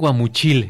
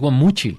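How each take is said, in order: First: The stress is on the last syllable, with i. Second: The stress is on the middle syllable, with u. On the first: The speaker calls it wrong. "Si le pones acento en la I" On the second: The speaker calls it right. "lleva acento en la U"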